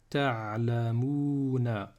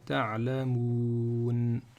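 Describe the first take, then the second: First: The word ends with a final vowel. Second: The word ends on a consonant. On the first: The reading continues past the word. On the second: The reading stops on the word.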